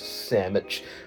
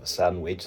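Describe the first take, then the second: First: It is said in a New York accent. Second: It is said in the speaker's usual accent. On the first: "they'll obviously speak it in a different way" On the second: "instead of a sandwich"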